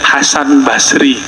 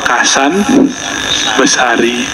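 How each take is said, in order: First: It starts with an H sound, two-syllable Basri. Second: It starts with a K sound, three-syllable Besari. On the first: This is the original form of the name. "Itu namanya" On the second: This is how Javanese people say the name. "Logat orang Jawa"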